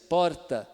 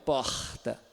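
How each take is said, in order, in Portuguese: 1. O r é pronunciado como um r de verdade. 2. O r é pronunciado com sotaque carioca. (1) "o paulistano, que ele está usando o R mesmo" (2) "É o carioca"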